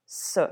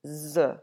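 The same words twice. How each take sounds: First: S as an unbuzzed "suh"; S voiceless, as Spanish Z; hard S sound. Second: Z as a buzzed "zuh"; Z drawn out with a buzz, not a letter name; English Z sound. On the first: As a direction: say S as a hissed consonant, not a letter name. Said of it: "what we would call a hard S". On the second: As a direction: say Z as the voiced sound in zoo. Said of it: "like the English version". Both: Shown as a demonstration.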